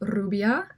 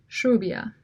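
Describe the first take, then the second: First: The first sound is a rolled trill. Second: The first sound is a hissing, whistly trill. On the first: "The standard trill" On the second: "sibilated trill, that is, with more of a whistle or s sound"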